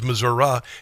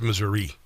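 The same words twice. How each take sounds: First: It is said the southern Missouri way. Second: It is said the northern Missouri way. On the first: The speaker is from southern Missouri. "if you're from Missouri and you're down south" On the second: The speaker is from northern Missouri. "if you're from Missouri and it's northern Kansas City"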